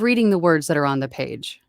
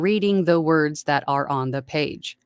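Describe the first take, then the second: First: It is read in a natural, conversational way. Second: It is read in a stiff, robotic way.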